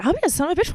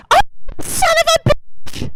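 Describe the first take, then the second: First: Softer, casual echo of the curse; retold puzzled kid, said under the scream's force; child's reaction. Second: Mother's scream. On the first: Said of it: "I'd be like". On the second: Retold or imitated. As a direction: imitate a mother screeching out of nowhere. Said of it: "scream to the top of her lungs".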